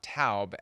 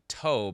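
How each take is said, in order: First: The vowel sounds like 'ow' in 'cow'. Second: The vowel sounds like 'oh' in 'go'. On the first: The speaker calls it wrong. "not Taub, as he had believed" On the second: The speaker calls it right. "it is indeed Tobe, as I had believed"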